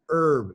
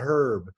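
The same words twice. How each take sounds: First: The initial H sound is dropped. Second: The initial H sound is pronounced. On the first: "They say herb" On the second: "not herb"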